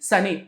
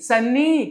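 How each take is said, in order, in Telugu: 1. మధ్య 'n' శబ్దం ఒకసారే ఉంటుంది. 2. మధ్య 'n' శబ్దం రెండుసార్లు ఉంటుంది. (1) "ఒకటే పలకాలి" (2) "కాదు"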